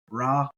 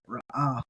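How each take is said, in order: First: It is said as one short syllable. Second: It is said as two syllables with a break. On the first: The aleph is treated as silent. "if it's silent" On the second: The aleph is pronounced. "If you like to pronounce it"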